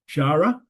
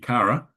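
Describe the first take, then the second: First: The word starts with a breathy h-like sound. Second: The word starts with a hard k sound. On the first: The speaker calls it wrong. "I'm pronouncing the H here" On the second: The speaker calls it right. "it should be Kara"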